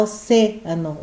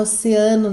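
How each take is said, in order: First: "oceano" said the Spanish way, with the stressed syllable on "ce"; Spanish pronunciation. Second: Oceano said the Portuguese way, stress on the syllable "a"; Portuguese pronunciation. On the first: Teacher giving the Spanish take of oceano. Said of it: "O C é a sílaba forte". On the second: Teacher giving the Portuguese take of oceano. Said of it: "nós falamos em português". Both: Shown as a demonstration.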